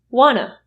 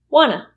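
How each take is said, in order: First: The words blend into one short word. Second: The same.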